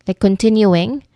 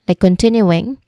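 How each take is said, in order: The two takes are said the same way.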